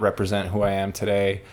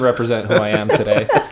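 First: The voice sounds apathetic and uncaring. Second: The voice sounds sincere and caring. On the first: The speaker does not really care. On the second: The speaker truly means the apology.

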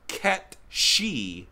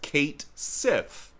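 First: The name sounds like 'Ket She'. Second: The name sounds like 'Kate Sith'. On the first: The speaker calls it right. "it should be pronounced Ket She" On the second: The speaker calls it wrong. "in English it would be pronounced Kate Sith. I have heard that's completely wrong"

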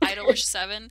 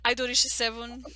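First: The name is said with English pronunciation. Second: The name is said with Japanese pronunciation. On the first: The speaker calls it wrong. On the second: The speaker calls it right.

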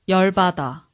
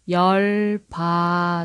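First: It is said at normal speed. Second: It is said slowly.

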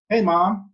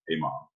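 First: It is said in a high boyish voice. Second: It is said in a deep bass voice.

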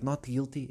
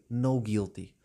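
First: The first word ends with a clear t sound. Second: The first word ends without a t sound. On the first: The speaker calls it right. "em vez de dizer not guilty" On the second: The speaker calls it wrong. "ela dizia no guilty"

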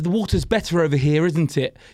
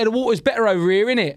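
First: It is said slowly in a more neutral accent. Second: It is said in a fast, broad London accent. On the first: This is adapted so foreign audiences can understand. The speaker calls it right. "I'll be like" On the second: This is how the speaker talks at home. The speaker calls it wrong. "You speak too fast and too London"

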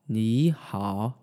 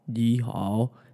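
First: First syllable rises, then the second dips. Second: Both syllables dip low as third tones. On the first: The speaker calls it right. "turn the first third tone actually into a second tone. So you're going to go up with your voice and then down" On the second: The speaker calls it wrong. "If I had to say ni hao, ni hao, that would feel a little bit difficult"

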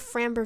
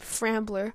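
First: The name is said without an L sound. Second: The name is said with an L sound. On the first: The speaker calls it right. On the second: The speaker calls it wrong.

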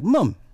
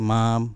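First: It is said in a British accent. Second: It is said in an American accent.

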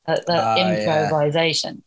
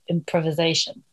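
First: It is said with a British pronunciation. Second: It is said with an American pronunciation. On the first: "the way English people say improvisation" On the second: "And Americans are"

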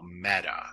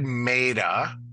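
First: The first vowel is short, like 'met'. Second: The first vowel is long, like 'meet'. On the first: The speaker calls it right. "that's really got to be a short initial vowel" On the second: The speaker calls it wrong. "which makes the E a long"

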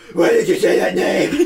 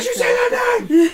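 First: It is said in a put-on Batman voice. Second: It is said in his normal voice.

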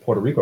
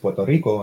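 First: Puerto Rico is said with an English pronunciation. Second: Puerto Rico is said with a Spanish pronunciation. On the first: The speaker calls it wrong. "I don't say like Puerto Rico" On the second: The speaker calls it right. "It's Puerto Rico"

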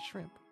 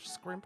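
First: The word begins with a plain sh sound. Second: The word begins with an s and k sound. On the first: "as normal people call it" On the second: "it has the K sound"

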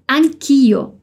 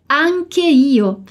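First: The two words merge into one word. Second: Both words are said fully and separately. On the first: "reduz essas duas palavras em anch'io, como se fosse uma palavra só" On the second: "a gente pode dizer anche io"

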